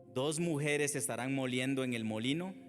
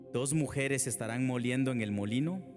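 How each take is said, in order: Both takes have the same delivery.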